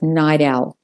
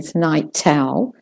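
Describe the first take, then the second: First: The T is a quick flapped D sound. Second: The T is a clear, crisp T sound. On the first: "the T links to the owl ... it devolves to the D, the flapped D" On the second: "If you're doing more towards the received pronunciation"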